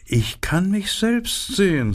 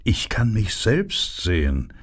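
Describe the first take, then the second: First: Much higher, preening flower voice; self-admiring narcissus, pitched way up; vain narcissus. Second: Vain flower, in a lightly changed voice; narcissus speaking. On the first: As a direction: admire yourself, up high. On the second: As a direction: admire yourself, near the narrator's own pitch. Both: A narrator's reading. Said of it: "sagte die Narzisse".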